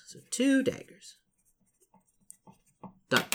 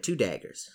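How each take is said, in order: First: Playful echo. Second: Said in the usual way. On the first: Pretend. Repeats line in put-on voice.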